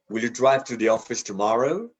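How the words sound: The stress falls on the word tomorrow. This is the ordinary, neutral question. "we typically stress the last word"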